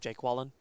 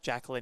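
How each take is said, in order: First: The name is said as Jake Wallen. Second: The name is said as Jacqueline. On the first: The speaker calls it wrong. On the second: The speaker calls it right.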